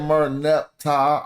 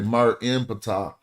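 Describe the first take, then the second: First: The name ends in 'neptah' with no 'p' before 'tah'. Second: The name is said with a 'p' before 'tah'. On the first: The name carries no meaning this way. The speaker calls it wrong. "this is they say Mer Neptah" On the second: The name keeps its meaning and power. The speaker calls it right. "we say Mer Impata"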